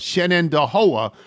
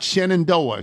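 First: Every syllable of the name is said. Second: One syllable of the name is dropped. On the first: The speaker calls it right. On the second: The speaker calls it wrong.

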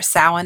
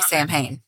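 First: The word is not pronounced as it is spelled. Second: The word is pronounced just as it is spelled. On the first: The speaker calls it right. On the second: The speaker calls it wrong.

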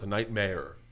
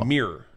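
First: The second syllable sounds like the word mare. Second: The second syllable sounds like the word mirror. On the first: It imitates how someone else says it. "You're saying it like it's a horse" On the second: It is the speaker's own way of saying it. "you're saying like a night mirror"

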